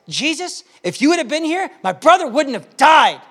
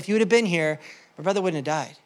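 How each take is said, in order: First: It is said in an upset, frustrated tone. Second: It is said in a calm, matter-of-fact tone. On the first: She is upset that he did not come. "Mary said it like this, ... it's a frustrated tone" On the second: She is simply stating a fact. "it's a matter of fact"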